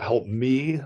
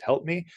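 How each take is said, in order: First: "me" leaned on as if italicized; stress on ME. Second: Said in the usual way. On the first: Shown as a demonstration. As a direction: put contrastive weight on "me". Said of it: "like an italicized me". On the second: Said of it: "but just help me".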